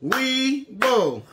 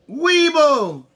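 First: Weeble in two separate beats, wee, bull; split into syllables. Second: Said in the usual way. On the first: Shown as a demonstration. Teacher clapping with campers, Weeble split into syllables. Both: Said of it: "Let's clap the syllables".

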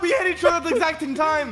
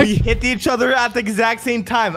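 First: High, fast, jumbled protest; garbled rush. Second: One word at a time. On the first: Player protests a near tie, garbled rush. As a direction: blurt it all in one high, slurred rush. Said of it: "I don't speak enchantment table". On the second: Player repeats it for confused friend, word by word. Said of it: "One word at a time". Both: Real, not acted.

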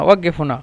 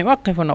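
First: ওয়াক্কেফ with a voiced g in the middle; ওয়াক্কেফ হুনা pronounced "waggef huna"; Saudi g sound. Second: ওয়াক্কেফ with a hard voiceless k/q in the middle; ওয়াক্কেফ হুনা with an unvoiced qaf, not a g; standard qaf sound. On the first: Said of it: "ওই সৌদিরা বলে ওয়াক্কেফ". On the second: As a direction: say ওয়াক্কেফ as "waqqef", standard Arabic. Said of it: "কফের উপরে". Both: Shown as a demonstration.

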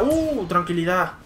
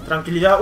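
First: Slow, stretched tranquilidad; drawn-out calm. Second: Said in the usual way. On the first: Real, not acted. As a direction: draw out the word calmly. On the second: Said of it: "Vale, tranquilidad".

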